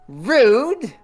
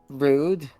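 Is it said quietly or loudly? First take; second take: loudly; quietly. First: It is said loudly enough to be heard. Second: It is said quietly, under the breath.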